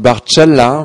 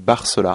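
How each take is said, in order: First: The name is said with Italian sounds. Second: The name is said with French sounds. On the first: This is the original family form of the name. "au départ on dit [name], parce que ça vient de mes origines italiennes" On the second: This is an adapted form of the name. "moi j'avais francisé la chose"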